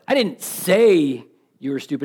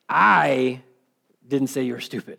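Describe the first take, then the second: First: The stress is on the word say. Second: The stress is on the word I.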